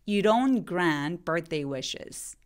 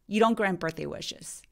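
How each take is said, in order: First: The sentence is spoken slowly. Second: The sentence is spoken quickly. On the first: "천천히 해볼게요" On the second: "빨리 발음하면"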